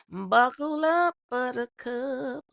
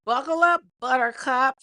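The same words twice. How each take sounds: First: Slow, stretched catchphrase; drawn out. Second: Punchy, loud rally; loud hype call. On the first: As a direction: stretch each word teasingly. Repeats catchphrase slowly. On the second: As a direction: call it out to the crowd. Hypes viewers for story. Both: Real, not acted.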